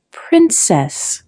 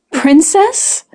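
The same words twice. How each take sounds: First: "Princess" repeated as a statement, falling tone; tasting the word. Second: "Princess" lifted high at the end as a question. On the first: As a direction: savour "Princess" as a once-familiar word, pitch dropping at the end. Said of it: "tasting the word that used to be familiar". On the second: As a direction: offer "Princess" as a pointed guess, pitch rising. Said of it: "The last makes her blanch". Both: A narrator's reading.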